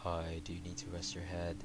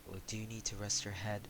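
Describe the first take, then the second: First: It is said in a deep voice. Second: It is said in a high voice.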